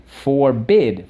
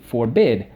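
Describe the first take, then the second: First: "forbid" split into FOR, BID; syllable by syllable. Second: Said in the usual way. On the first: Shown as a demonstration. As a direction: give each half of "forbid" its own beat. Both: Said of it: "So let's go".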